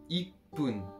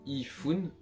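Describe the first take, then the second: First: The middle consonant is a hard p sound. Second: The middle consonant is a soft f sound. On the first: The speaker calls it right. "on dit ipun" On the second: The speaker calls it wrong. "on dit pas ifun"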